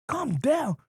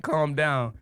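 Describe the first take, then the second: First: Outraged disbelief. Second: Said in the usual way. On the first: Retold or imitated. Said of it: "Calm down? What the fuck?". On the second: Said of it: "He was like".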